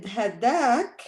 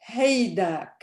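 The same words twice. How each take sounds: First: Hadak with a plain "ha" opening; first-syllable short A. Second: Haydak with a "hay" opening; AY pronunciation. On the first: Teacher showing students the standard variant, short-A pronunciation. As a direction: say hadak, short "ha", long "daak". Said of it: "is also pronounced by some people as haydak". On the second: Teacher showing how some people say it, AY pronunciation. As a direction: say haydak, first syllable gliding like "hay". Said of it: "pronounced by some people as haydak". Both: Shown as a demonstration.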